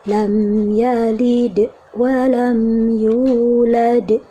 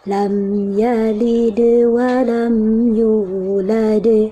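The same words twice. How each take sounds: First: The bounce stops abruptly with a small break. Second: The bounce flows smoothly into the next sound. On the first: The speaker calls it wrong. "Itu ada mentoknya, ada jedanya" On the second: The speaker calls it right. "Alirkan bunyinya"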